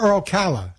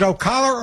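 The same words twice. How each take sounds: First: Ocala as oh-KAL-a, "a" as in cat; Ocala with flat "a". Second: Ocala as oh-KAH-la, broad "ah" in the middle. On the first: Host checks with caller, Ocala with "a" as in cat. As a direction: give Ocala the short "a" of pal. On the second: Host asks caller about the town, Ocala with "ah". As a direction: stress Ocala's second syllable with an open "ah". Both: Shown as a demonstration. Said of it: "I'm such a New Yorker".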